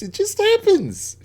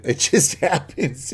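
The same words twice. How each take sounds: First: A much higher, squeaky mock-innocent voice; mock innocent squeak. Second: Slow, laughing through the words. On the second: Real, not acted. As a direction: chuckle the line out as a guilty joke. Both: Joking about chopping up bodies.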